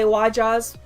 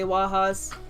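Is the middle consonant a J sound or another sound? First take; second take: J sound; another sound. First: The word is said with a J sound. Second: The word is said without a J sound. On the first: This is how most people say it. "most people say Wajas with the J" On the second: This is the speaker's own way of saying it. "I say Wajas"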